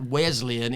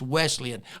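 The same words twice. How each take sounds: First: The middle consonant is a buzzing z sound. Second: The middle consonant is a hissing s sound. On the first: The speaker calls it wrong. "not Z" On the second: The speaker calls it right.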